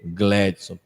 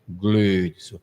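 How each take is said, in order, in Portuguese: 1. A primeira vogal é um e aberto. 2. A primeira vogal é um e fechado. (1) "Não precisa de um agudo para ser Gledson" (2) "não precisa de um chapeuzinho circunflexo para ser Gledson"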